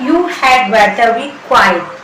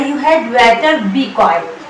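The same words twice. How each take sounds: First: Very slow, each word laid out; slow teaching demo. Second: Very slow, word by word; slow teaching demo. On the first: Teacher repeating the sentence for students, very slow. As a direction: say it slowly so students can repeat. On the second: Teacher drilling Hindi-speaking students, slow and deliberate. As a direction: spell out each word slowly for learners. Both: Shown as a demonstration. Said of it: "इसकी English होगी".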